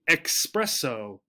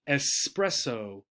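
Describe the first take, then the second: First: It is said with an 'x' sound, 'ex-'. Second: It is said with a plain 's' sound, 'es-'. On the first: The speaker calls it wrong. "as if there were an X here" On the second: The speaker calls it right. "The pronunciation is espresso"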